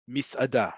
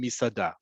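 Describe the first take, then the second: First: "misada" said with a little break before "ada"; break inside "misada". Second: "misada" run together with no break; elided "misada". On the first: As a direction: split "misada" into mis, then ada. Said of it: "have that little break there". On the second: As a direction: glide through "misada" as one word, mi-sa-da. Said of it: "a little bit more, um, eliding". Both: Shown as a demonstration.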